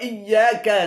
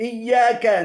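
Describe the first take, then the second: The two takes are said the same way.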